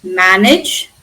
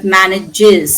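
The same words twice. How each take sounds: First: MANAGE in two syllables, MAN-ij; base ending. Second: MANAGES slowly as MAN-ij-IZ; extra syllable. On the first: Teacher gives the verb before adding an S, two syllables. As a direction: end MANAGE on "ij". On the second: Teacher shows third person present tense, added syllable. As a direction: draw out the final "iz" in MANAGES. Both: Shown as a demonstration. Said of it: "plus we are adding an S".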